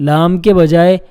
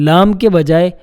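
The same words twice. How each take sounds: No difference in how they are said.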